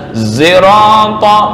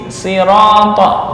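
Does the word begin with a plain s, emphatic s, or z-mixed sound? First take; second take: z-mixed; plain s. First: It begins with an s mixed with z. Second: It begins with a plain, light s sound. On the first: "ismam, shad dibaca za" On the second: "dengan membaca sin"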